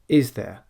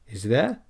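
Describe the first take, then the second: First: The pitch falls at the end. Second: The pitch rises at the end. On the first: The speaker states something both people already agree on. The speaker calls it right. "then we go downwards in our intonation" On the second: The speaker is asking a real question. The speaker calls it wrong.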